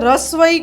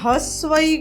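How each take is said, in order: First: The term is said in a simpler everyday form. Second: The term is said in its full formal form. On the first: This is how people casually say it. "સાદી ભાષામાં રસ્વઈ કહીએ છીએ" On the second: This is the official name of the sign. "એને હસ્વઈ કહેવાય"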